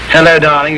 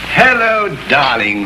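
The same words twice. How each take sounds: First: The greeting sounds stiff and cool. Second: The greeting sounds warm and affectionate.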